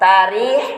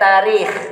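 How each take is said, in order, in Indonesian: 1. Berakhir dengan bunyi h lembut yang berdesah. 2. Berakhir dengan bunyi kh yang serak dari tenggorokan. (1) "Boleh ha" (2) "boleh juga kha"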